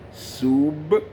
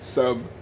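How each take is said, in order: First: The final B is stressed with a clear stop. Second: The final B is weak and not clearly stopped. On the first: The speaker calls it right. "emphasize that B sound at the end as we stop" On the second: The speaker calls it wrong. "not sub"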